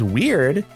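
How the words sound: The word is said in an approving tone. Being weird is a good thing. "If somebody's weird, that's good"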